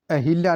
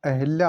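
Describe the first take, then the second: First: अहिल्या with i after h; a clear हि in अहिल्या; mispronounced अहल्या. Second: Said in the usual way. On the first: Shown as a demonstration. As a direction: say अहिल्या as "a-hil-yaa". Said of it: "अहिल्या नहीं होता". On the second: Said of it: "अहिल्या होता है".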